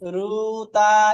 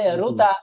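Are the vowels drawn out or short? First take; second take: drawn out; short. First: The vowel is stretched out long. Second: The vowel is said short and quick. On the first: The speaker calls it wrong. "এরকম টান দেওয়া যাবে?" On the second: The speaker calls it right. "টান দা একদমই দেওয়া যাবে না, কারণ হরকত হরকত হলে দ্রুত পড়তে হয়"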